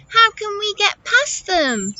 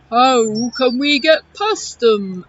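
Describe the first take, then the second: First: High attempt at an elephant; poor elephant voice. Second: Loud, rounded elephant voice; Eddie the elephant. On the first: Storyteller's failed elephant voice asking about the rocks, high. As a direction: ask it high, missing the elephant sound. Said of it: "that wasn't a very good elephant voice". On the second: Acted. Elephant asking about the pile of rocks, loud creature voice. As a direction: boom it like a storybook elephant. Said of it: "Shall I do it again?".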